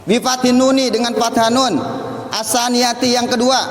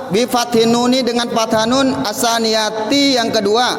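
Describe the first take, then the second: Both takes have the same delivery.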